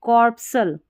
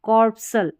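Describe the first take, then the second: Both takes have the same delivery.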